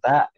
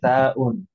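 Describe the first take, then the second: First: It ends abruptly in a glottal stop. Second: It ends with a full '-un' ending. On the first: This is how it is said in conversation. "memang disukunkan ta ini" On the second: Every vowel mark is read in full. "dibaca semua harokatnya taun"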